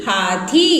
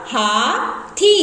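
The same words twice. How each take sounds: First: Said in the usual way. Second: Teacher stretching हाथी slow; slowly drawn out. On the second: Shown as a demonstration. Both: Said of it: "तो बन जाएगा".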